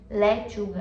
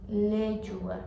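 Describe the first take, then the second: First: The vowels are pronounced open. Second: The vowels are pronounced closed. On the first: The speaker calls it wrong. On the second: The speaker calls it right.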